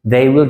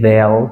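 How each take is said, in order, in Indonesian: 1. Diucapkan sebagai dua kata penuh yang terpisah. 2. Diucapkan sebagai satu suku kata pendek yang disingkat.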